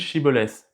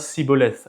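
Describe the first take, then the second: First: The word begins with an sh sound. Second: The word begins with an s sound. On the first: This is the standard pronunciation. "Normalement, en hébreu, ça se dit" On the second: This marks a speaker of another group. "ils prononçaient ça Siboleth avec un se"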